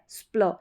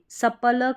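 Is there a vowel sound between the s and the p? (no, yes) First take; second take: no; yes. First: The s, p and l run together. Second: A full vowel separates s from p. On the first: The speaker calls it right. "एस का उच्चारण आधा स" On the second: The speaker calls it wrong. "सपल करके नहीं पढ़ेंगे"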